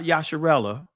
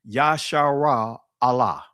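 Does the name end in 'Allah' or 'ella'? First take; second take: ella; Allah. First: The name ends with a short run-together 'ella'. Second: The name ends with a full separate 'Allah'. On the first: The speaker calls it wrong. "not Yasharella" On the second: The speaker calls it right. "is Yashara Allah. That's the proper pronunciation"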